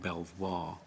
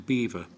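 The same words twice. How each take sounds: First: The name is said with a French pronunciation. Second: The name is said with an English pronunciation. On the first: The original name as the Normans said it. "this strange sounding Belvoir" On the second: The local villagers' altered version of the name. "it was corrupted to Belvoir"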